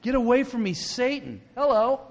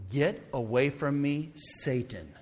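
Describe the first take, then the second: First: High, incredulous echo; shocked disbelief. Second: Measured, slow stern rebuke. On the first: Preacher repeating the Savior's harsh words, shocked disbelief. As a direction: throw the harsh words back in astonishment. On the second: Jesus turned to Peter to rebuke him, very sternly. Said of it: "said to Peter very sternly". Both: Acted.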